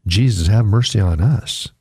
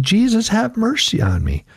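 First: Said in the usual way. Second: High, pleading cry. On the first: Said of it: "we need to cry out". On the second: A narrator's reading. Blind beggar crying out to Jesus, high and pleading. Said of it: "And he cried out".

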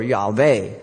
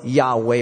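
First: Yahweh with a V, YAH-vay; V pronunciation. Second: Yahweh with an English W, YAH-way; W pronunciation. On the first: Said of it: "whether it's pronounced". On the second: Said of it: "So we don't know whether it's pronounced". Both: Shown as a demonstration.

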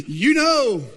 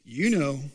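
First: High, loud parrot call; parrot punchline. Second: Low, understated parrot remark; parrot punchline. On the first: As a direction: crow the bird's taunt out loud. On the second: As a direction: drop the bird's line low and deadpan. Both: Acted. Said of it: "the bird says".

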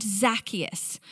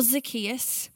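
First: "Zacchaeus" as ZAK-ee-us; first-syllable stress. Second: "Zacchaeus" as zuh-KEE-us; second-syllable stress. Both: Shown as a demonstration. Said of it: "Is it Zacchaeus or is it Zacchaeus".

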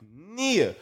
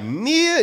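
First: Said in the usual way. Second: NIA pitched up as a question; doubtful, higher NIA?; questioning repeat. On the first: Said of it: "He was like". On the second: Retold or imitated. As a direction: echo NIA higher, checking it. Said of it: "And I was like".

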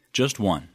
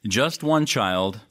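First: Just one, with one falling firmly; short, firm Just one; stress on one. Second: Put-on Just one child, slowly, one leaned on and rising; lingering on one with a slow rise; slow emphasis on one. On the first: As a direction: land on one and drop. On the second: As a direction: stretch out one, slow and deliberate. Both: Shown as a demonstration.

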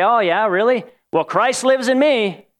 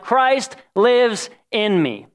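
First: Smug one-upping. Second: "Christ lives in me" said very slowly, each word weighed; slow earnest claim. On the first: Retold or imitated. Answering a friend's promotion news, mock smug and higher. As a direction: top them with a self-satisfied brag. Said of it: "you're trying to one-up them". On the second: Shown as a demonstration. Preacher declaring to the congregation, slow and earnest. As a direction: let "Christ lives in me" land slow and reverent. Sincere lofty scripture claim.

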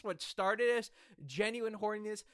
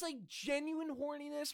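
First: Said in the usual way. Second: Voice cracking up an octave. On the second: Real, not acted. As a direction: voice breaks high on genuine. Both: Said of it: "my voice cracked there".

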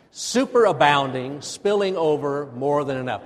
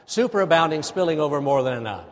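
First: Loud, measured call to repeat; deliberate, louder group chant lead; rousing recitation. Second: Quick, loud run-through of the phrases; brisk, raised-voice group recitation; faster. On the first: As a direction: wake the congregation up with each phrase. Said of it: "Oh, say it again. Wake up". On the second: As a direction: rattle it off in one go. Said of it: "Now let's say it faster". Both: Shown as a demonstration.

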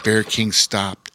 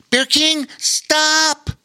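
First: Said in the usual way. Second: Much higher, louder shout of alarm; yelled warning. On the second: Acted. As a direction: cry out to stop him in time. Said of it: "yelled Lore".

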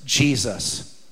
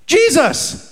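First: A low, soft, hushed "Jesus"; hushed answer. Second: Proclaimed answer. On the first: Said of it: "Can I tell you what always works?". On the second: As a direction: lift "Jesus" high and proclaim it. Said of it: "Can I tell you what Christians need more than ever?". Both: Shown as a demonstration.

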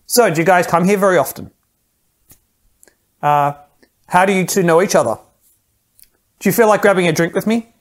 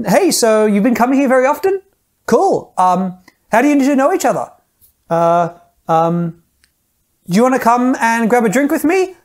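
First: Each question ending on a firm downward fall; falling command endings. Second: Every sentence ending on a high upturn, pitched well up; rising high endings. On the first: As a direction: say it like a command, pitch going down. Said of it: "your voice doesn't pitch upward at the end, it pitches down". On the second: Coach demoing a supplicating pickup line, pitch rising. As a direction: ask each question nervously, voice climbing at the end. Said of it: "we end our sentences on a high note". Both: Shown as a demonstration.

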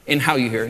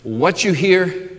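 First: "how" tipped up in "and how you hear"; stress on how. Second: "what you hear" slow, leaning on "what"; stress on what. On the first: Pastor to congregation, contrastive stress on "how". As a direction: land on "how" to set it against "what". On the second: Pastor to congregation, slow contrastive stress on "what". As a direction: mark "what" as the thing to guard. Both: Shown as a demonstration. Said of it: "content and attitude".

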